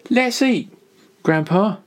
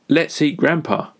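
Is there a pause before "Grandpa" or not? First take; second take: pause; no pause. First: There is a pause before Grandpa. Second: It runs on with no pause before Grandpa.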